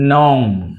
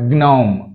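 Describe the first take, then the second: First: The word begins with an n sound. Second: The word begins with a g sound. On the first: The speaker calls it right. "జీ మరియు ఎన్ combination వస్తే జీ అనేది silent అవుతుంది" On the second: The speaker calls it wrong. "నాట్"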